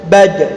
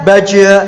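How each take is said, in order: First: The final consonant is cut off and held. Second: The final consonant is released with a vowel. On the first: The speaker calls it right. "Jadi suaranya tertahan" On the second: The speaker calls it wrong. "Tidak dibaca baja ... Enggak dilepas seperti itu"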